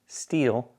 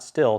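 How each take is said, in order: First: The vowel is long, as in 'steel'. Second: The vowel is short, as in 'still'. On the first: The speaker calls it right. "it's actually pronounced steel" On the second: The speaker calls it wrong. "not still"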